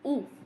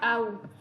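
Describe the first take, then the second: First: The word is said with a plain 'oo' vowel. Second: The word is said with an 'ow' vowel. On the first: The speaker calls it right. "it basically makes it oo" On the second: The speaker calls it wrong. "not au"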